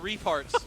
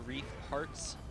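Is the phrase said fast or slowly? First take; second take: fast; slowly. First: The phrase is said quickly and run together. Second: The phrase is said slowly and carefully. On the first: The speaker calls it wrong. "if you say it fast, it sounds disgusting" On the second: The speaker calls it right. "I say that slowly"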